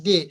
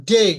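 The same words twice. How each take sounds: First: Said in the usual way. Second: ডে as a gliding "dei"; ডে with drawn-out "ay" glide; long EI ending. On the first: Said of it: "আমরা বলে থাকি ডে". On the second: Shown as a demonstration. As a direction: stretch ডে into a diphthong. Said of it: "কিন্তু এটার উচ্চারণ হবে".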